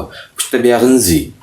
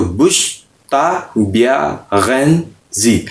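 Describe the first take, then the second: First: बुश्तबेगंजी slowly, with only a faint g; light g pronunciation. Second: बुश्ताबेगंजी slowly, with a hard, full g; stressed pronunciation. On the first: Teacher models the proper light बुश्तबेगंजी for learners. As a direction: keep the g in बुश्तबेगंजी barely there. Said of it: "ये पे गैन बहुत ज़्यादा गा pronounce नहीं होगा". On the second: Teacher demonstrates the overly stressed बुश्ताबेगंजी to learners. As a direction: lean on the g sound in बुश्ताबेगंजी. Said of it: "अगर मैं इसको स्ट्रेस के साथ बोलूँ". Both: Shown as a demonstration.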